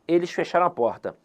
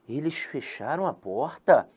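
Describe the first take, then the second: First: It is said as a plain statement. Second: It is said with question intonation. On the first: It reports that they closed the door. "na primeira frase" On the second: It asks whether they closed the door. "e depois eu tenho um ponto de interrogação"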